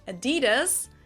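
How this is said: It is said the American way.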